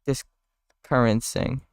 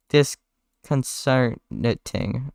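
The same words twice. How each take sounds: First: Discurrencing said slowly, garbled; fumbled word. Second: Disconcerting said very slowly and clearly; careful correction. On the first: Barry stumbling on the word, slow garble. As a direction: trip over discurrencing. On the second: Barry correcting himself, slow and careful. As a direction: spell out Disconcerting syllable by syllable. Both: Acted.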